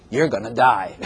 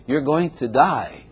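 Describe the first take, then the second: First: Low, offhand doom pronouncement with a laugh; blunt death warning. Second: Slow, softened delivery of bad news; gentler death warning. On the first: Acted. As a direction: tell them bluntly, breaking into laughter. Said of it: "don't say it like that". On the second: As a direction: break it to them slowly and kindly. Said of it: "don't say it like that. Say".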